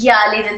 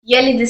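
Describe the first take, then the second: First: The first vowel is drawn out long. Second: The first vowel is said short. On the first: The speaker calls it wrong. "जल्द करने के बजाय हमने खींच दिया" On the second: The speaker calls it right. "हरकत को जल्द अदा करेंगे"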